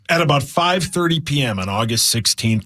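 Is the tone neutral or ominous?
neutral. It is read in a plain, neutral tone.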